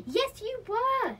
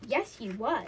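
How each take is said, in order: First: High, loud, drawn-out contradiction; raised-pitch childish argument, slow and loud; insistent retort. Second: Said in the usual way. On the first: A narrator's reading. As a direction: stretch it out insistently in a squabble. Escalating acted children's quarrel.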